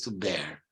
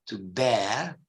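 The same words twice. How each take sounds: First: It is said with an American accent. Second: It is said with a British accent.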